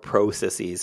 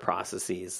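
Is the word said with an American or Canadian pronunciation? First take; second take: Canadian; American. First: It is said with a Canadian pronunciation. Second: It is said with an American pronunciation.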